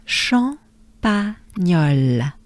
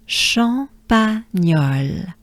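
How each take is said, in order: First: Champagnole drawn out slowly again, each syllable held; slow repeat. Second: Champagnole drawn out slowly, syllable by syllable; slow model. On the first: Teacher repeating Champagnole slowly with the class. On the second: Teacher modeling Champagnole slowly for the class. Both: Shown as a demonstration. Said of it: "Good breath with me".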